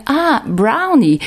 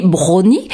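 First: Higher, drawn-out American "brownie" of sudden recognition; American accent. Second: Brownie said the French way, drawn out; French accent. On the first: Shop worker finally understanding the customer, American-accented brownie. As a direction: say brownie the American English way, slowly. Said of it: "la personne a fini par dire". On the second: Friend insisting he used the right word, French-accented brownie. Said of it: "Tu parlais aussi de l'accent". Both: Retold or imitated.

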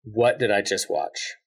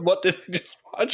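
First: A dazed moviegoer, slowly; stunned disbelief. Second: Higher, rising and thrilled; a wowed fan, excited and rising; delighted amazement. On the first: Pretend. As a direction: let it sink in, slowly. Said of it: "What, what's your reaction?". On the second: Retold or imitated. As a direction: say it like the best surprise ever. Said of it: "Is that a good".

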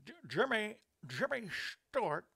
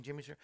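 First: A stammering, higher attempt at Jimmy Stewart. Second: Said in the usual way. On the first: Shown as a demonstration. Host attempting a Jimmy Stewart impression for his birthday. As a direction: try a halting Jimmy Stewart stutter on the name. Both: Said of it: "That's the best I can do".

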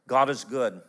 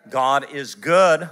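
First: Said in the usual way. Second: Louder and slow, leaning on good; emphatic proclamation. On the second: Shown as a demonstration. Preacher repeating it to the congregation, louder and slower. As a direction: proclaim it slowly, each word weighty. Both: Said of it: "repeats the line".

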